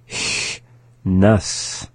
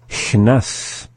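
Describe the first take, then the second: First: It is said slowly. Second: It is said at normal speed.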